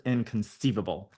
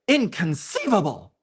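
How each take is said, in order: First: It is read in a plain, ordinary voice. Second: It is said in a put-on film-character voice. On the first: The speaker calls it wrong. "I didn't say that right" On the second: The speaker calls it right. "If you know, you know"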